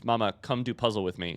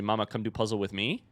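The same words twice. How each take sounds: First: "Mama, come do puzzle with me" said as a plain order, ending down on "me"; flat command, tune falling at the end. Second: "Mama, come do puzzle with me" flat, with just a small lift on "me"; near-monotone with only a tiny rise at the end; flat toddler question. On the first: Shown as a demonstration. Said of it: "Instead of the command". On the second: Retold or imitated. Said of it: "she actually says it with even less inflection than that".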